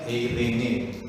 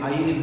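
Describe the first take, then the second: First: The name is said in three syllables, 'eh-ree-neh'. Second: The name is said in two syllables, 'eye-rin'. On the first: This is how the name should be said. The speaker calls it right. "harusnya eirene" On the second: This is how people say the name now. The speaker calls it wrong. "kok lafalnya jadi airin sekarang ya"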